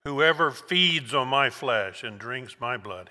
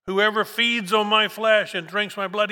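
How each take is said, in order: First: Slowed down, back at normal pitch; slow, weighty reading. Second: Higher and louder, each word driven home; emphatic proclamation. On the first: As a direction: let each word sink in slowly. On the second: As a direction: proclaim it like a preacher at full force. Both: Shown as a demonstration. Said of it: "he says it again".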